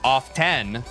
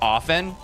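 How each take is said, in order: First: The word is said with an audible T. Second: The word is said with a silent T. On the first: "so many people pronounced it as off ten" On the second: "is supposed to be pronounced often"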